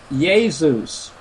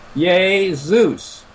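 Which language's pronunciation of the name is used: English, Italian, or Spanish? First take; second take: Italian; Italian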